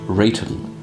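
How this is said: It is said in a posh English way. "Could be very posh English and say Rayton"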